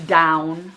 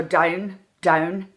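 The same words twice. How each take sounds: First: Said in the usual way. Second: "down" with the vowel narrowed toward "dine"; Irish "down". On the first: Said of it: "when I say down". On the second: Shown as a demonstration. Coach showing the accent vowel, "down" fronted and narrowed. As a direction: say "down" with a tight Irish diphthong. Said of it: "Don't go as far as they really do".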